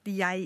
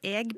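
First: The word has the standard Bokmål pronunciation. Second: The word has the local dialect pronunciation. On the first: This is the form the speaker wants used. "Kunne du bare ha liksom sagt jeg" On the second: This is the form the speaker wants avoided. "I stedet for jeg"

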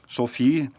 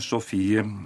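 First: The final e is silent. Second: The final e is pronounced. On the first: This is the Swedish way, following French. "men de sier ... Sofie" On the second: This is the Norwegian way to say it. "nå uttalte de kvinnenavnene på norsk måte"

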